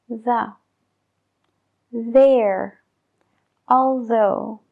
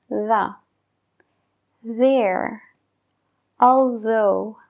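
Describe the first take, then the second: No difference in how they are said.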